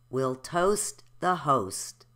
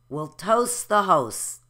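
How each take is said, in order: First: The T sounds are clearly pronounced. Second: The T sounds are left out. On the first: "now I'm going to say it with the T's" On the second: "I'm going to say the next sentence without the T's"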